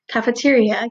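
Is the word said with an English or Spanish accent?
English. It is said with an American English accent. "there are also words that we say"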